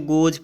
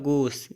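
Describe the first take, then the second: First: The word ends with a z sound. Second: The word ends with an s sound. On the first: The speaker calls it right. "लेकिन उसको गोज पढ़ते हैं" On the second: The speaker calls it wrong. "जी O E S गोस होता है"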